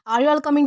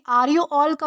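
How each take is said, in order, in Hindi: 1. 'You all' एक ही अक्षर में सिकुड़ जाता है। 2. 'You all' दो पूरे शब्दों की तरह बोला जाता है। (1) "यॉल प्रोनाउंस करते हैं क्योंकि हमें जल्दी बोलना है होता है" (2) "फॉर्मल वे में कहना चाहे तो"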